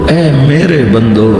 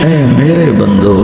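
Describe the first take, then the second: The two takes are said the same way.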